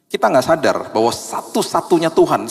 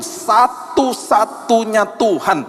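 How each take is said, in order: First: Said in the usual way. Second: Satu-satunya drawn out slowly and pitched high; stress on satu-satunya. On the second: Shown as a demonstration. Preacher underlining satu-satunya for the congregation, slow and high. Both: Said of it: "garis bawah itu".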